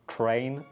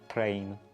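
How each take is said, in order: First: The word begins with a ch sound. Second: The word begins with a plain t sound. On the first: "with ch or t" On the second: "with ch or t"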